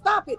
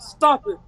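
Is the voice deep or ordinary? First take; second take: ordinary; deep. First: It is said in an ordinary, higher voice. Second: It is said in a deep, low voice. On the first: The dogs ignore this voice. "With me, I be like" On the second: The dogs obey this voice. "that that deep voice"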